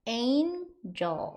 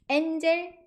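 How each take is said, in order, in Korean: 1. 영어식 자음과 모음으로 발음해요. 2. 한국식 자음과 모음으로 발음해요. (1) "이렇게 발음하셔야 되고요" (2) "엔젤 아니고"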